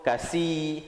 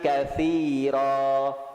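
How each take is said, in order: First: The middle consonant is an s sound. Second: The middle consonant is a th sound. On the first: The speaker calls it wrong. "mungkin sebelum ni kita sebut kasi, sin" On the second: The speaker calls it right. "di situ adalah huruf sa"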